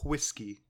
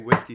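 First: The word starts with a breathy h sound. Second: The word starts with a plain w sound. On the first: "he says whiskey. Pronounce that H. Over enunciate" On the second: "He doesn't say whiskey"

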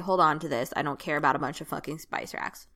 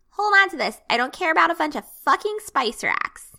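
First: It is said in the speaker's own normal voice. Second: It is said in a put-on character voice. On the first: The player is speaking as themselves. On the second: The character is speaking.

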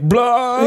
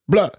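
First: The b sound is hit hard and forcefully. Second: The b sound is lighter and softer. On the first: The speaker calls it wrong. "you do sort of lay into the bees like pretty hard there" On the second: The speaker calls it right. "It's better"

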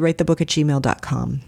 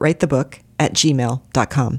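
First: The address is read at a normal pace. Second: The address is read at a slower pace.

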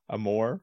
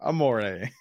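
First: The word ends like 'four', with no final vowel. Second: The word ends with an extra final vowel sound. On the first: The speaker calls it wrong. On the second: The speaker calls it right.

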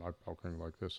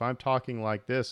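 First: It is said with a different timbre and rhythm. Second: It is said in the speaker's usual voice.

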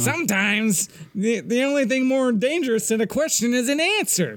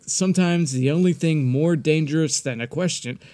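First: It is said in a put-on Nagus voice. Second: It is said in the speaker's own voice.

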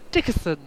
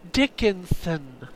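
First: The name is said loosely, a sound dropped. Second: The name is said carefully, every sound clear. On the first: "I like Dickison better" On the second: "You have to enunciate"

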